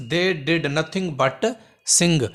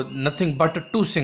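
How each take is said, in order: First: Very slow dictation; teacher slowly reading the correct sentence; correct version, slowed. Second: Slow dictation of the wrong form; teacher slowly showing the wrong form; wrong version, slowed. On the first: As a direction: read the right sentence out word by word. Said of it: "हिते थींदो but sing". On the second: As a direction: say the mistake slowly so they hear it. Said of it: "न, न।". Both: Shown as a demonstration.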